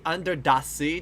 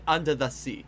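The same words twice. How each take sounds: First: "the" in "under the sea" as a heavy "dah"; overdone accent. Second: "under the sea" with a light, unstressed "the"; de-emphasized syllables. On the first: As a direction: slowly stress a hard d in "the" of "under the sea". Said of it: "don't say under the sea". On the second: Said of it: "de-emphasize certain syllables". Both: Shown as a demonstration.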